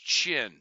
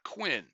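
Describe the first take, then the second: First: The word starts without a 'w' sound. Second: The word starts with a 'kw' sound. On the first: The speaker calls it right. "Please note that pronunciation of that word. It's Qin" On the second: The speaker calls it wrong. "There's no U there. It's not Quinn"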